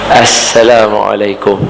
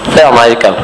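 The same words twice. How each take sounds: First: It is said smiling, with a clear s. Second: It is said with the tongue held stiffly. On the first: The speaker calls it right. "dia mesti kena senyum" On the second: The speaker calls it wrong. "lidah pengkak julak tengok sebut"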